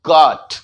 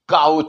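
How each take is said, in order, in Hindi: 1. स्वर एक सादा 'aw' ध्वनि है। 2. स्वर 'cow' के 'ow' की तरह फिसलता है।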